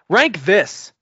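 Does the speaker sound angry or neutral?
angry. It is said in an angry, scolding tone. The speaker calls it right. "Sound angry"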